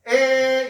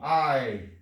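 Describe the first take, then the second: First: It is one steady vowel sound. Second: It glides from an a to an i. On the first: This is the modern pronunciation. "지금 애는요, 에 이렇게 되니까 단모음이거든?" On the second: This is the fifteenth-century pronunciation. "중세 때 이 애는 어떻게? 이렇게 해요. 아 더하기 이"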